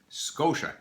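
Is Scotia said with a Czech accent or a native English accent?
native English. It is said with a native English accent. The speaker calls it right. "it's pronounced Scotia"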